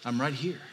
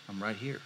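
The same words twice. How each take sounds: First: Soft, steady reassurance; reassuring Jesus. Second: Much softer, lower, close and hushed; gentle Jesus. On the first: Jesus repeats his comfort to the grieving listener, gently. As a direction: say it again, calm and certain. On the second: Jesus reassures a grieving listener, hushed and close. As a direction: lean in and say it almost under your breath. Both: Acted.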